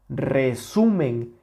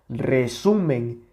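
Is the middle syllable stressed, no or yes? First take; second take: yes; yes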